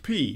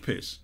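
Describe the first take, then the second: First: The word ends on a long vowel. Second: The word ends with an s sound. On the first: The speaker calls it right. "is pronounced pee" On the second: The speaker calls it wrong. "not piss"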